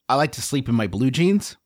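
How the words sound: It is said in a calm, undefensive tone.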